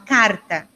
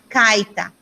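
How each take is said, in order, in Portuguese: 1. O som do R é claramente pronunciado. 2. O R é substituído por um som de i. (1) "mas falar" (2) "Não falar"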